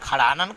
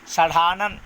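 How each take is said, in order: First: The word begins with a 'kh' sound. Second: The word begins with a retroflex 'sh' sound. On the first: The speaker calls it wrong. "इसका खड़ानन कहते हो" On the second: The speaker calls it right. "स मूर्धा से"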